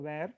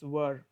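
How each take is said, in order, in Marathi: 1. हा शब्द 'where' सारखा वाजतो. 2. हा शब्द 'were' सारखा वाजतो. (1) "आपण चुकीचं pronunciation करतो where, but that's absolutely wrong" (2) "It's were"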